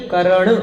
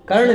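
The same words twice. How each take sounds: First: करण with a full vowel after the r, "ka-ran"; corrected pronunciation. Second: कर्ण with the middle vowel dropped, r running into ण; wrong pronunciation. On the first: Teacher correcting students' spelling, carefully articulated करण. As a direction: sound out both vowels in करण, separating क from रण. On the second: Teacher showing students the mistaken word, run-together कर्ण. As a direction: say कर्ण as two syllables, "kar-na". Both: Shown as a demonstration. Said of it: "कर्ण नहीं, करण".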